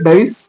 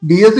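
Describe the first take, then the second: First: The word is said as one syllable, 'dice'. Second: The word is said as two syllables, 'dee-es'. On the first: The speaker calls it wrong. "ഡൈസ് അങ്ങനെയാണ് ഞാൻ വായിച്ചത്" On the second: The speaker calls it right. "എന്തായാലും ഡി എസ് ഈറ"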